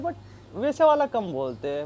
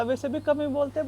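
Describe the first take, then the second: First: वाला drawn out, slow and rising; stress on वाला. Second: कम lifted high as the ordinary sense; light stress on कम, said a bit higher. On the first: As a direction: lean on वाला and slow the whole phrase down. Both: Shown as a demonstration. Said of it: "मतलब वैसे वाला कम नहीं मैं बोला".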